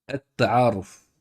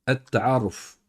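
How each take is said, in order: Both takes have the same delivery.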